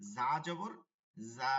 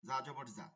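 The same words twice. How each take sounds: First: The vowel is drawn out long. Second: The vowel is said short and quick. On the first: The speaker calls it wrong. "এটা দেওয়া যাবে না" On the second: The speaker calls it right. "হরকত মানেই দ্রুত"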